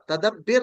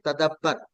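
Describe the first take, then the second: First: The vowel before the final r is i. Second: The vowel before the final r is a. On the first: The speaker calls it wrong. "तदब्बिर नहीं कहना" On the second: The speaker calls it right. "बल्कि ये तदब्बर"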